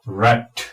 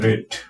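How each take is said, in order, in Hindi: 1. स्वर एक खुला छोटा 'a' ध्वनि है। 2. स्वर एक बंद 'e' या 'ay' ध्वनि है। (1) "रैट ना कि रेट" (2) "ना कि रेट"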